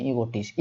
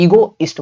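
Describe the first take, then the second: First: ईगोटिस्ट with a t, ending "go-tist"; slip of the tongue. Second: ईगोइस्ट without the t, ending "go-ist"; self-correction. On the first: Teacher misnames the word, ईगोटिस्ट with an extra t. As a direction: say ईगोटिस्ट with a t before "ist". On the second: Teacher corrects own slip, ईगोइस्ट with no t. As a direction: say ईगोइस्ट with "ist" straight after "go". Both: Real, not acted. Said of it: "ये sorry ईगोइस्ट बोलते हैं".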